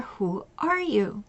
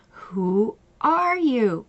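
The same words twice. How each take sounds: First: Quieter, unhurried, gentle probing; soft slow question. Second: Drawn out slowly, each word landing; slow pointed question. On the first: Coach to client, softer and slow. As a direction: ask it softly so she listens. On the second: Coach repeating the question to client, slow and pointed. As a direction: let the question hang, slowly. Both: Retold or imitated.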